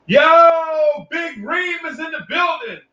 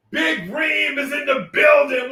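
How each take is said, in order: First: Much higher, yelled hype call; excited shout-out. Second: High, slow, stretched announcer call; drawn-out sing-song announcement. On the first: Streamer greeting a viewer in chat, high excited yell. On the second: Streamer repeating a viewer's welcome, slow sing-song call. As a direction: stretch it out like an arena intro. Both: Real, not acted.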